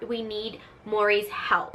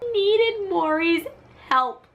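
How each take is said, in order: First: Said in the usual way. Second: High, loud, drawn-out cry; hammed-up high-pitched plea; dramatic mock plea. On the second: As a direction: wail it slowly for comic effect. Dramatic repeat of mother's plea.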